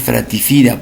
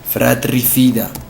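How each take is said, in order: First: The r in the second syllable is dropped. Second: The r in the second syllable is pronounced. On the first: The speaker calls it wrong. "¿por qué le has quitado la R?" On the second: The speaker calls it right. "Lo correcto tend- tendría que ser acá fratricida"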